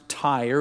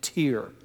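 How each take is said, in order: First: The name is pronounced the standard way. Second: The name is pronounced like a family surname. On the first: The speaker calls it right. "But it really is pronounced Tyre" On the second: The speaker calls it wrong. "I was hoping I could find some justification for pronouncing it Tyre"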